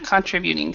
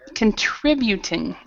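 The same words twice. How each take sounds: First: The stress falls away from the syllable trib. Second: The stress falls on the syllable trib. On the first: The speaker calls it wrong. "instead of" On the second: The speaker calls it right. "So the stress is in the, the trib part"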